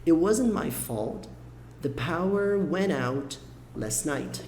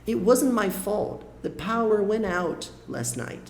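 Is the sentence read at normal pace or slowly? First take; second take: slow; normal. First: The sentence is read a little more slowly. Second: The sentence is read at a normal pace.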